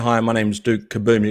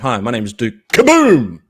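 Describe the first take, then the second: First: It is said in a plain, flat way. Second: It is said loudly with big energy.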